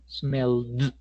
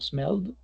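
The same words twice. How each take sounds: First: It is said slowly with an exaggerated final d. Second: It is said quickly with a subtle final d. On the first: "ahí estoy exagerando el gesto" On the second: "sería como"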